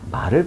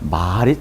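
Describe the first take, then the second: First: The vowel is kept short. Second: The vowel is held long. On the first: It means horse. "짧죠?" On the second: It means speech. "사람 말씀 언에 해당되는 것이 길게 발음됩니다"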